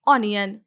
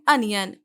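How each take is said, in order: First: The first vowel sounds like 'on'. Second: The first vowel sounds like 'un'. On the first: The speaker calls it wrong. "Mostly लोग पढ़ते हैं ऑनियन" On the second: The speaker calls it right. "Correct pronunciation है अनियन"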